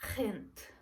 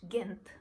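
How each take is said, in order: First: It is said with a Netherlands Dutch accent. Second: It is said with an English accent. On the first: "they would pronounce it as" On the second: "which I would pronounce it in English"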